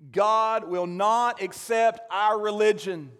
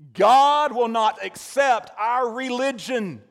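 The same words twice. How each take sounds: First: The sentence is said at normal volume. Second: The sentence is said at raised volume.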